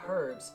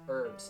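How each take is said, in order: First: The word starts with an h sound. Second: The word starts with a vowel, no h. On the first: The speaker calls it wrong. "not herbs" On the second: The speaker calls it right. "Like U R B S"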